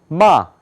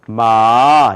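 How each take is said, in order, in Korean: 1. 네 번째 성조로 발음해요. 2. 두 번째 성조로 발음해요. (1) "네 번째 마 이렇게 발음해요" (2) "두 번째는 마 이렇게 발음해요"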